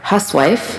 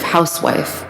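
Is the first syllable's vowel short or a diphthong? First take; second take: short; diphthong. First: The first syllable has a short 'uh' vowel. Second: The first syllable has an 'ow' diphthong. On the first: The woman is frivolous or disreputable. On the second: The woman manages a household.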